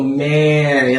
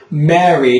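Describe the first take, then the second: First: MARY with lips spread, "mare-ee"; drawn-out spread vowel in Mary; wide wrong vowel. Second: MARY with a tall, open first vowel; Mary said like "marry"; full lip-shaped vowel. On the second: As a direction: round the lips through Mary. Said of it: "you want your lips to be like". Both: Shown as a demonstration.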